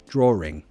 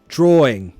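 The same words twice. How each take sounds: First: An R sound links the two vowels. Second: The vowels meet with no R sound between. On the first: The speaker calls it right. "it's quite easy to just put an R in there" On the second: The speaker calls it wrong. "it doesn't hit the ear right"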